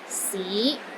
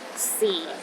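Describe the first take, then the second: First: The pitch rises from low to middle. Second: The pitch is at its lowest. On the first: It means city. "It starts low, then rises to the middle of your range" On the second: It means time. "the lowest tone"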